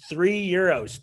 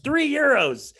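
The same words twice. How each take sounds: First: Said in the usual way. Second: "Three euros" pitched way up in amazement; emphatic repeat. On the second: Retold or imitated. Comic telling friends how cheap the burger was, emphatic repeat. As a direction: hit "Three euros" high and a bit louder.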